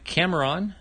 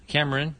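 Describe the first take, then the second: First: Cameron misread as "Camer-on", with a full "on" ending. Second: Said in the usual way. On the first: Real, not acted. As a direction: say Cameron with its last syllable rhyming with "on". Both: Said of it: "Cameron, sorry".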